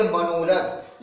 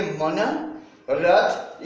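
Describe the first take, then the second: First: मनोरथ said as one word with ओ; joined word. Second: मन रथ said as two separate words; separated parts. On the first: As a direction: merge मन and रथ into मनोरथ. (मनोरथ जोड़कर एक शब्द में) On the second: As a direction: pause between मन and रथ. (मन रथ अलग-अलग बोलें) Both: Shown as a demonstration. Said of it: "उच्चारण में काफी अंतर".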